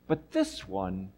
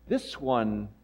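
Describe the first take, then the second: First: Slow, weighty "this" in "But this one,"; stress on this. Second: Said in the usual way. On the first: Acted. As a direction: lean hard on "this" and draw "But this one," out slowly.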